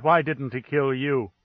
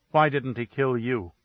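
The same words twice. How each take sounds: First: Pleading outcry at the ambassador; cried out. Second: Level, flat question with no lift; frozen, toneless accusation; dead flat tone. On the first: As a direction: let the flat calm crack into a cry. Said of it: "she cried". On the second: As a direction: ask it cold and even, as if numb. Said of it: "dead, flat tone that froze the air". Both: Acted.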